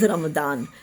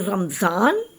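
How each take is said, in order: First: The middle consonant is a d sound. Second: The middle consonant is a z sound. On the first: This is the original Arabic form used globally. "that is Arabic, is the original Arabic pronunciation, which uses a d" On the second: This is the form used in the Indian subcontinent. "in the subcontinent we use the z sound"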